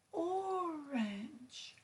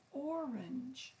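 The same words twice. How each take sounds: First: First syllable of Orange held long, then falling away; stress on first syllable. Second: Said in the usual way. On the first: Shown as a demonstration. Teacher demonstrating the stressed syllable in Orange, first part drawn out. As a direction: stretch out the OR in Orange. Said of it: "The first syllable is stressed in orange". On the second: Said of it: "when it's said a bit longer or louder".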